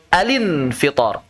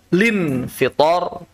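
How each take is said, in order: First: It begins alin, with l linked into in. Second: It begins directly with lin, dropping al. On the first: "Alin fitor boleh" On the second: "lin fitor juga boleh"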